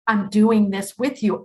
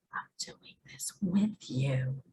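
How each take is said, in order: First: Said in the usual way. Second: Hushed whisper, soft and intimate; whispered reassurance. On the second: Pretend. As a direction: breathe it like a secret comfort. God speaking softly to Lori.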